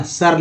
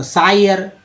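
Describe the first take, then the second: First: सर with a short neutral vowel and a falling tone; सर, the right reading; correct pronunciation. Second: सायर said with an "eye" vowel, as the mistake; सायर, the wrong reading of SIR; wrong pronunciation demo. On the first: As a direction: say सर plainly, as in "sir". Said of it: "सर लिखा हुआ". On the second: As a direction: mispronounce सायर on purpose. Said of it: "सायर गलत हो जाएगा ना". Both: Shown as a demonstration.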